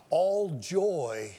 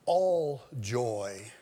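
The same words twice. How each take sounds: First: "all joy" whispered, breath only; hushed secret-telling "all joy". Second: Said in the usual way. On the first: Shown as a demonstration. Now listen, whispered key phrase.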